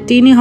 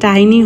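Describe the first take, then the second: First: The first vowel sounds like 'ee'. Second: The first vowel sounds like 'eye'. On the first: The speaker calls it wrong. "আপু এটা টিনি হবে না" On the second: The speaker calls it right. "এটা টাইনি হবে"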